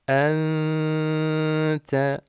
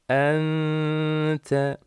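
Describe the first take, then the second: The two takes are said the same way.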